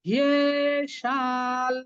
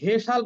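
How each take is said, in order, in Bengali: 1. শব্দটি গড়িয়ে যাওয়া 'hiye' ধ্বনি দিয়ে শুরু হয়। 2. শব্দটি সাধারণ 'he' ধ্বনি দিয়ে শুরু হয়। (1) "আমরা বলবো হিয়ে" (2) "আমরা কিন্তু হেসাল বলবো না"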